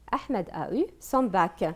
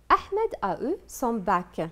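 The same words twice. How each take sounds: First: Said in the usual way. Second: Slow teacher read. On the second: Shown as a demonstration. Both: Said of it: "repeated for the class".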